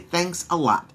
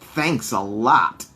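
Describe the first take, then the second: First: It sounds warm and sincerely grateful. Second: It sounds annoyed and sarcastic. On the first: Someone helped a great deal. "If we want to say someone helped us a good amount" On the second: Someone did not help and it is annoying. "if we pronounce this phrase differently, what we will be saying instead is, someone did not help us, and it makes us mad"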